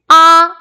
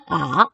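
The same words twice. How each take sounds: First: The pitch stays high and level. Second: The pitch dips low and comes back up. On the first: "일성" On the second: "삼성"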